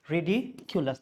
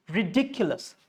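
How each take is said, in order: First: Ridiculous split ri-dee... kyu-lus; ridiculous as "ree-dee, culous"; wrong RIDICULOUS. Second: Ridiculous as ri-DIK-yu-lus; ridiculous with the K closing DIC; stressed DIC in ridiculous. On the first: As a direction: break ridiculous before the K sound. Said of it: "That's how you are breaking it". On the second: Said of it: "Rule is". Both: Shown as a demonstration.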